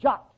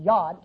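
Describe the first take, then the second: First: It begins with a J sound and ends in T. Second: It begins with a Y sound and ends in D. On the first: This is the English rendering of the letter's name. "we pronounce it J for the Y, and a D like a T" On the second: This is the original Hebrew name of the letter. "it's Y-O-D"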